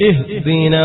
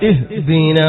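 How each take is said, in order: No difference in how they are said.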